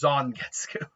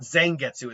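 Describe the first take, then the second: First: The first syllable sounds like 'zon'. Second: The first syllable sounds like 'zang'. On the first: The speaker calls it right. "I pronounce the Zang as a Zon" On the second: The speaker calls it wrong. "it's not Zangetsu"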